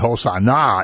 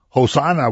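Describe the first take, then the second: First: The stress is on the last syllable. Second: The stress is not on the last syllable. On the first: It is an urgent plea to come and save now. "it means come and save us now. It's like emphasis on when you accent the last syllable" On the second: It is a plea to come and save. "which means come and save us"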